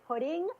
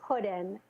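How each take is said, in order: First: The word ends with an ng sound. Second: The word ends with a plain n sound. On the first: "I would want to say pudding" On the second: "they're pronouncing it puddin"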